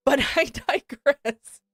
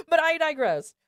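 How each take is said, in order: First: Slow, laughing aside. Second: Higher, wheezing laugh through the words; can barely say it for laughing; laughing harder. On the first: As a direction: chuckle through the words as you move on. Laughing, then moving on. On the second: Laughing, repeating the aside. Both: Real, not acted.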